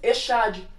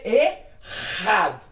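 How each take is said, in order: First: The middle consonant is a soft 'sh' sound. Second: The middle consonant is a rough throaty scrape. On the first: "em português nós leríamos Echad, porque aqui o C H tem som de X" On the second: "no hebraico se lê Ehad"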